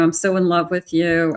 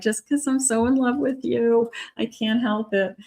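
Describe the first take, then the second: First: Said in the usual way. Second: Teary lovestruck voice. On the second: Pretend. To a partner who asks why they're crying, a high tearful gush. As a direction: play someone crying happy tears while in love. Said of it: "And you're like".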